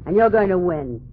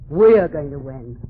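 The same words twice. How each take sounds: First: You're stressed, falling firmly. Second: We're punched lower and slower; stress on We're. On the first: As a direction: lean on the word you're. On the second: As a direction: hit the word We're, then win. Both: Shown as a demonstration. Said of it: "I say "we".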